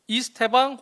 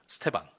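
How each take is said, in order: First: The name begins with an 'ee' vowel. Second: The opening vowel is dropped, starting on 's'. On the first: This follows the official spelling rule. "알파벳 이를 이 발음으로 하라고 하는 것 같더라고요" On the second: This is how Brazilian commentators say it. "이 발음이 약간 묵음처럼 잘 안 들리긴 합니다"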